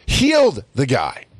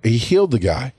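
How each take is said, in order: First: "Healed" drawn out and pitched high; slow, amazed weight on "Healed"; stress on Healed. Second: Said in the usual way. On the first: Real, not acted. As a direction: punch and stretch the word "Healed". Repeats it to hammer the marvel.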